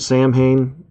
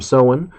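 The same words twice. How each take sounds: First: It is said as spelled, 'sam-hain', with h. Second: It is said like 'sow-in', without the h. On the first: This is how the spelling looks. "which looks like it's spelled Samhain" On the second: This is the traditional Celtic pronunciation. "we use the old Celtic term Samhain"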